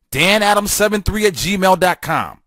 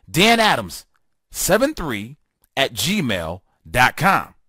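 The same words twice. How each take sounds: First: Said in the usual way. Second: Slow, spaced out, piece by piece; slow repeat. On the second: Real, not acted. Host repeats his email address for listeners, slowly and spaced out. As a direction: spell it out slowly for note-takers.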